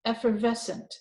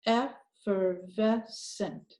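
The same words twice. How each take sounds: First: Said in the usual way. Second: Effervescent stretched very slowly; slow blend. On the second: Shown as a demonstration. Teacher blending the whole word, very slow. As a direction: draw out every chunk of Effervescent. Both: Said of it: "look at the last one".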